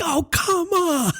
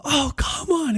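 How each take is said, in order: First: High, drawn-out exasperated cry; frustrated yell. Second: High exasperated groan; exasperated cry. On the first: Dad crying out to the car full of kids, exasperated. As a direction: wail it like a dad at the end of his rope. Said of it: "when I yelled that". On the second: Dad reliving his frustration in the car, exasperated. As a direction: let it out like you can't believe it. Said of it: "I was serious about it". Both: Retold or imitated.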